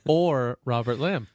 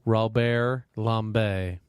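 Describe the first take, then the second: First: The surname is said in a plain, ordinary way. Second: The surname is said in a fancy, flourished way. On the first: "How the layman pronounces it" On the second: "Put some flair on it"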